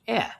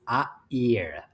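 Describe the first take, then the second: First: It sounds like English 'air', one syllable. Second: Two pure vowels are kept separate, two syllables. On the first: The speaker calls it wrong. "I read A A I R as air, like air in English" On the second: The speaker calls it right. "the vowels are pure and they stay separate"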